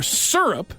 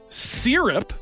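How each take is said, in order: First: The first syllable does not sound like 'sear'. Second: The first syllable sounds like 'sear'. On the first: This is how the speaker says it. "which is how I say it" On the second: This is how the other person says it. "which is the way that you apparently say it"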